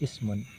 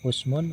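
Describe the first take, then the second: First: The first vowel is an 'i' sound. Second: The first vowel is an 'u' sound. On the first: "dan kasrohnya hamzah" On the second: "dengan dhammanya hamzah"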